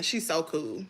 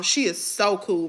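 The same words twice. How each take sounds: First: Hushed echo of the praise; soft repeat. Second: Said in the usual way. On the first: Real, not acted. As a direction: drop to a quiet afterthought. Repeats praise, second time hushed.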